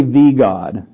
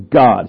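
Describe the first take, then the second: First: "the" stressed as "thee" before God. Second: "God" standing alone, firmly stressed. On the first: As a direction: lean hard on "the" in "the God". Contrasts wrong wording with the Greek. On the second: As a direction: land plainly on "God", no article. Gives the wording without article. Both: Shown as a demonstration.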